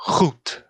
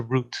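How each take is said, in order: First: "route" with a guttural French R; "route" as a French speaker says it in English; French-accented R. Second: "route" with a plain English R; "route" without French throat friction. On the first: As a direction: start "route" with back-of-throat friction. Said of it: "someone from France is speaking English". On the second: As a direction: start "route" with a smooth English R. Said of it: "instead of". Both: Shown as a demonstration.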